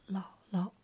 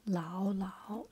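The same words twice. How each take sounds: First: 姥姥 with a short, light second syllable. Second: 姥姥 with both syllables fully toned; full second tone. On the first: Teacher showing viewers how to say grandmother, light-toned second syllable in 姥姥. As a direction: let the second syllable of 姥姥 drop short and unstressed. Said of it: "the second sound is light tone". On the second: Teacher showing viewers how not to say grandmother, full-toned second syllable in 姥姥. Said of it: "the second sound is light tone, ... instead of saying". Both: Shown as a demonstration.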